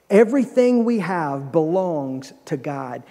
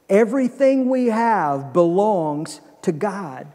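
First: It is said plainly, without special force. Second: It is said forcefully, with strong conviction. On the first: "Say that with me" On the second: "but like you really mean it"

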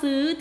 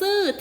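First: The syllable has a high tone. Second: The syllable has a falling tone. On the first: "เจอคำว่าซื้อที่นิ้วนางนั่นก็คือเป็นเสียงตรี" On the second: "เราเจอคำว่าซื่อที่นิ้วกลางแสดงว่าเป็นเสียงโท"

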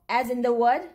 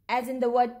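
Both takes have the same delivery.

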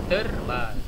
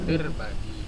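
Both takes have the same delivery.

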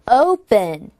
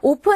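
First: The first vowel glides from o toward u. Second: The first vowel is a flat, pure o sound. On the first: The speaker calls it right. "O로 가지, 즉 O까지 하셔야지" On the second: The speaker calls it wrong. "open 아니고"

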